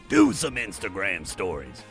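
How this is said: It is said in a deep growling voice.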